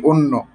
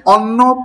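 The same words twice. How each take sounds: First: অন্য with a closed o, lower in pitch; as actually spoken. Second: অন্ন with an open aw vowel, drawn out; read as written. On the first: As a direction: say অন্য as "onno". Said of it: "পড়ছি অন্য". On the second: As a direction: say অন্ন slowly as "awnno". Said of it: "লেখা আছে অন্ন". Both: Shown as a demonstration.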